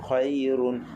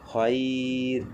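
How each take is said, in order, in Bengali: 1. শব্দটি পূর্ণ 'run' উচ্চারণ দিয়ে শেষ হয়। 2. শব্দটি খালি, হালকা র ধ্বনি দিয়ে শেষ হয়। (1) "যখন আমি মিলায়া পড়তেছি তখন খয়রুন" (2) "আর যখন আমরা থামতেছি তখন খয়র"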